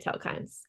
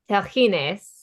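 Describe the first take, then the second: First: The name is said with a simplified anglicized pronunciation. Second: The name is said with ancient Greek pronunciation. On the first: This is an easier everyday pronunciation. "but I would just say telkines" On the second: This is the authentic original pronunciation. "in the ancient Greek actual pronunciation is telchines"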